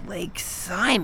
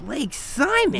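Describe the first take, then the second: First: Soft, slow, wounded Like Simon?; hurt quiet repeat. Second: High, disbelieving Like Simon?; shocked question. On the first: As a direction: let the insult sink in. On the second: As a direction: recoil at being compared to him. Daughter shocked at comparison. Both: Acted.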